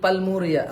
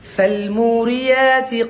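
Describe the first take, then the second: First: The word begins with a p sound. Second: The word begins with an f sound. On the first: The speaker calls it wrong. "অনেকে পা বলে" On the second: The speaker calls it right. "ফ ফ ফ ف"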